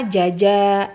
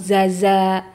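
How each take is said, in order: First: Both syllables begin with a j sound. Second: Both syllables begin with a z sound. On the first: "Kadang-kadang huruf jim semua" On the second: "atau zaza"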